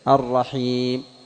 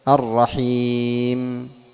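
First: The final m is cut off abruptly. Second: The final m is held with moderate flow. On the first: The speaker calls it wrong. "ومن دون حبس للصوت فتصير شديدة" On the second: The speaker calls it right. "وإنما تبيين للميم بتوسط"

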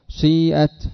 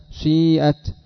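Both takes have the same delivery.

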